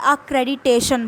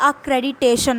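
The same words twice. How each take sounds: First: The two t sounds merge into one. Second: The two t sounds merge into one.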